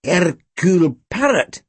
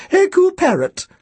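First: Slow, drawn-out mutter; amused, lingering repeat of the name. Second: Put-on thin, very high old-woman voice; high-pitched elderly shopkeeper; Missus Bodega. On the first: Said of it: "he muttered". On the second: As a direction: trill the name like a birdlike old lady. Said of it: "Her voice was thin and high-pitched". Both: A narrator's reading.

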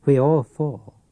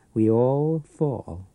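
First: Said in the usual way. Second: Drawn-out, strange voice on We all fall; slow eerie repeat. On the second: Acted. The pawnbroker taunts his old enemy, slow and eerie. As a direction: stretch every word, haunting.

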